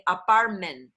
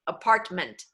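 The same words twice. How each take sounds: First: Apartment ohne T gesprochen, wie apar-men; dropped Ts. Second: Apartment mit beiden T deutlich; crisp Ts. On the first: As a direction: say apartment with both T's dropped. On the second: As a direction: hit both T's in apartment. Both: Shown as a demonstration. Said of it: "if I drop both of the T's".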